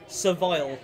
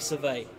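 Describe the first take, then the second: First: The final L is clearly pronounced. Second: The final L is left silent.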